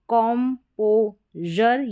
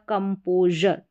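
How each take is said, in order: First: The first syllable sounds like 'com'. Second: The first syllable sounds like 'cum'. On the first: "कम या कॉम करके pronounce किया जाएगा" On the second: "दोनों तरीके से pronounce कर सकते हैं"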